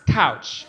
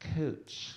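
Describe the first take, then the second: First: The vowel is an 'ow' sound, like pouch. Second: The vowel is an 'oo' sound, like pooch. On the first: This is how it is said where the speaker grew up. "where I'm from, it's pronounced couch" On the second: This is how the locals say the name. "it's pronounced cooch"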